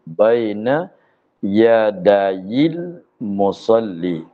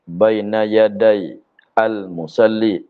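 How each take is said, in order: First: The words are joined without a pause. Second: There is a pause before al-musalli.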